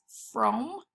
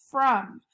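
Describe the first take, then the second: First: "from" with a long O, like "frome"; sounded-out mispronunciation. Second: Said in the usual way. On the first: Shown as a demonstration. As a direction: say "from" as frohm, O as in home. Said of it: "if you sounded it out correctly". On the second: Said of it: "says uh".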